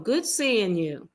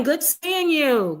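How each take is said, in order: First: Said in the usual way. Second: Lifted, slow, high-pitched hello; bright high greeting. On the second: Real, not acted. Host greeting chat viewer Deluxe Life, high excited hello.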